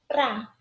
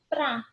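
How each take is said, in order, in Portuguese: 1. A palavra é reduzida a uma sílaba. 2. A palavra é reduzida a uma sílaba.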